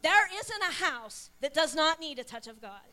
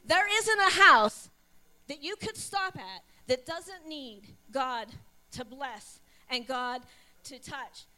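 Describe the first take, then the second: First: Said in the usual way. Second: Slow, weighty stress on isn't; slow emphasis. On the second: Shown as a demonstration. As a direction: lean on isn't, every word spaced out.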